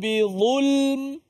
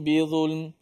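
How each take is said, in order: First: The pitch stays up, left hanging and unfinished. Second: The pitch falls to a closed, finished ending. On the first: The sentence continues after this. The speaker calls it right. "biar intonasi tu macam tak sudah lagi. Tak habis. Biar tergantung" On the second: The sentence is complete. The speaker calls it wrong. "jangan kita baca intonasi yang macam kita nak sudah. Nak habis"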